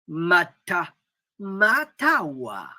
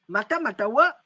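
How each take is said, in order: First: The syllables are hammered out firmly and separately. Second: The syllables are run together smoothly without force. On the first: It asks whether the listener hears the weapons rumbling. The speaker calls it right. "Il faut donc marteler" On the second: It means nothing. The speaker calls it wrong. "pour moi, ça ne veut rien dire"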